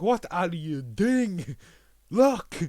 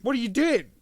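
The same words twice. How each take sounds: First: Louder, slowly stretched, then a sharp high LOOK; mock exasperated yell; slow exasperated shout building to a yell. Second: Much higher and louder, exasperated yell; mock frantic yell; frantic shout. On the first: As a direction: drag out the plea then bark the last word. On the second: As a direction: scream it at someone about to quit. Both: Watcher yelling at Hawkeye.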